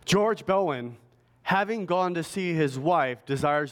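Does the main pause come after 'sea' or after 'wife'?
after wife. The main pause falls right after 'wife'. He went to visit his wife and asks for prayers himself. "but you add a pause here, right? You put a comma there"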